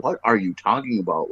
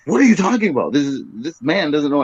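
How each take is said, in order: First: Said in the usual way. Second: Higher, faster flustered denial; flustered protest. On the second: Retold or imitated. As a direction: voice the panicked preacher rising in pitch. Preacher protesting, higher retake.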